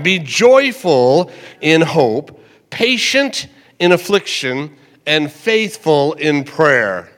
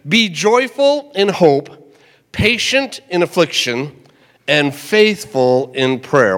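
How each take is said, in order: First: Deliberate repeated recitation; slow scripture reading again. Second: Slow, deliberate reading of the verse; measured pulpit recitation; slow scripture reading. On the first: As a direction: say it once more, slowly and firmly. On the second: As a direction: read the verse slowly so it sinks in. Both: Shown as a demonstration. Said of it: "One more time".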